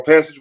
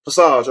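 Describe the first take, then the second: First: Said in the usual way. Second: Passage with a French ending, pa-SAHZH; French-style surname. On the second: Shown as a demonstration. Gives two readings of the surname.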